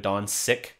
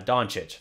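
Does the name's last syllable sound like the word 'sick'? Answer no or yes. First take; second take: yes; no. First: The last syllable sounds like the word 'sick'. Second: The last syllable does not sound like 'sick'. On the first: The speaker calls it wrong. "how many people will say Luca Doncic" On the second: The speaker calls it right. "it's not that hard"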